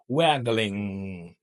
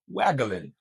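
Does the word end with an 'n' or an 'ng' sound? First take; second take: ng; n. First: The word ends with a full ng sound. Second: The word ends with a plain n sound. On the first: "you got to stick to this mm" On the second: "Like this, only N at the end"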